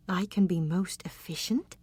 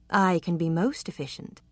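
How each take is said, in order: First: "I can be most efficient?" softer, with the tune rising at the end; unsure echo of his own words; rising, questioning tune. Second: Said in the usual way. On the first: Acted.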